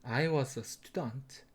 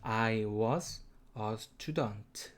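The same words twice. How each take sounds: First: Drawn out, each word separate, softer; very slow demo, word by word. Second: Slow demo. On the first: Teacher modelling the sentence for students, very slow. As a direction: spell it out for learners, very slow. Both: Shown as a demonstration. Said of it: "발음은".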